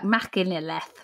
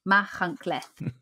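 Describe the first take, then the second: First: The name gets a plain English-style reading. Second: The name gets a Welsh-style pronunciation. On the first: The speaker calls it wrong. "So it looks like Machynlleth, but it's not" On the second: The speaker calls it right. "It's Machynlleth. Apparently"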